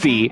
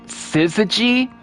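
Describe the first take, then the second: First: The word is said with two syllables. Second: The word is said with three syllables. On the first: The speaker calls it wrong. "I've been calling it" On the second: The speaker calls it right. "That's how you say it"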